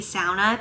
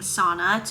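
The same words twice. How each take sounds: First: The word is pronounced the Finnish way. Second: The word is pronounced the common American way. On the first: This is the speaker's own northern Minnesota pronunciation. "people get so irritated that I say sauna" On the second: This is said to please other people. "saying sauna to appease them"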